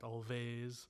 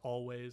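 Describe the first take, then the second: First: The consonant after the L is a V sound. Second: The consonant after the L is a W sound. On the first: The speaker calls it wrong. "and not Always" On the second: The speaker calls it right. "it's pronounced Always"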